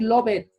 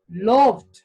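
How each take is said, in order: First: The ending does not sound like t. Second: The ending sounds like a t. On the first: The speaker calls it wrong. "No puedo decir loved, no existe loved" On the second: The speaker calls it right. "la E y la D se pronuncia como la T al final"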